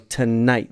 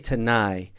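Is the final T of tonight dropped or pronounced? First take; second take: pronounced; dropped. First: The word ends with a clear final T. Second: The word ends without a final T sound. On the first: The speaker calls it right. "You got to close that off with a T" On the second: The speaker calls it wrong. "don't put the T on the end of it"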